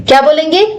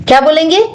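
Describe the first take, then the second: Both takes have the same delivery.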